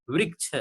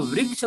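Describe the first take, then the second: First: वृक्ष said as vrikshh with ऋ pronounced ri; correct ऋ sound. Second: वृक्ष said as varaksh, with the ऋ turned into a plain र; dialect variant. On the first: Teacher models the standard form for students. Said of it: "एक example में वृक्ष होता है". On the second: Teacher demonstrates the regional variant for students. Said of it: "वृक्ष भी बोलते हैं". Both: Shown as a demonstration.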